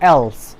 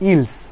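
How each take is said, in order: First: The first vowel sounds like the 'e' in bed. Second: The first vowel sounds like the 'i' in ill. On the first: The speaker calls it right. "The correct pronunciation is else" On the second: The speaker calls it wrong. "আমরা প্রায় বলে থাকি ইলস। It is not ইলস"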